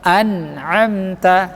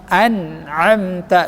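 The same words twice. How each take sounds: No difference in how they are said.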